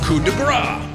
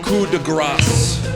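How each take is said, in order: First: The final consonant of the last word is silent. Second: The final consonant of the last word is pronounced. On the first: It means a blow of fat. The speaker calls it wrong. "When you leave out the consonant" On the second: It means a merciful killing blow. The speaker calls it right. "you pronounce the consonant"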